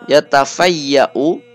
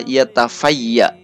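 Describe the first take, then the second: First: The word ends with a short u vowel. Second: The word ends without a final u vowel.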